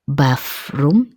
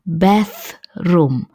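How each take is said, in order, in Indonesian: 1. Konsonan di tengah itu bunyi f. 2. Konsonan di tengah itu bunyi th. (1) "Jadi bukan bathroom, jadi bukan seperti F" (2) "Saya ulang, bathroom"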